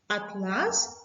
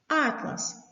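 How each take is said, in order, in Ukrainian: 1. Наголос на другому складі. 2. Наголос на першому складі. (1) "це тканина" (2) "З цим наголосом слово означає збірник карт"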